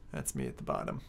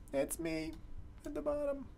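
First: Said in the usual way. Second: Much higher, soft self-mocking lilt; soft high sing-song self-pity. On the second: Shown as a demonstration. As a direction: lift it up, mocking your own loss.

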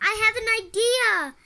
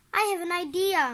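First: High, loud, insistent call; trying to be heard. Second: High, eager call. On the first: May trying again when no one listens, calling loudly. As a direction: raise it over everyone rushing around. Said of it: "She tried again". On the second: May trying to get the family's attention, calling out. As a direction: pipe up over the noise. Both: A narrator's reading.

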